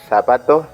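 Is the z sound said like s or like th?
th. The z is pronounced like a th sound. The speaker calls it wrong. "So it's not like zapato, zanahoria, because we don't do that in Latin America"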